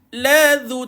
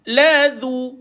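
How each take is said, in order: No difference in how they are said.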